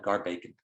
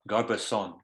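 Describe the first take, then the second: First: The name is said the local way. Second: The name is said the standard way. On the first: "We we always called it" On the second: "I think the right way to say the creek is"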